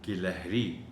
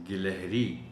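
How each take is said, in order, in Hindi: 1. पहले अक्षर में 'i' स्वर है। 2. पहले अक्षर में 'i' स्वर है।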